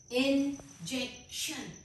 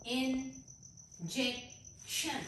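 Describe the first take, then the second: First: Said in the usual way. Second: injection drawn out very slowly and softly; very slow word. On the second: Shown as a demonstration. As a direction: ease injection out gently for the class. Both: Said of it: "इसके तीन syllables हैं".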